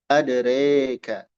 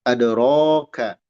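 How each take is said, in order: First: The vowel after r leans toward e. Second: The vowel after r is an open a. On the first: "Ada imalah" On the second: "Ada fathah"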